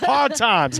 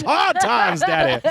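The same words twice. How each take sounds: First: Higher, put-on comic lament voice; mock lament. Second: Much higher, laughing through a silly put-on voice; laughing mock lament. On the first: Joking to co-host about axe murders, mock lament. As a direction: sigh out the hard times in a silly high voice. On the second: Cracking up at her own axe joke, high laughing mock lament. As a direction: crack up while pushing the voice way up.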